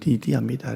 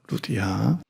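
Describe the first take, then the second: First: The first syllable has an 'ee' vowel. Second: The first syllable has an 'oo' vowel.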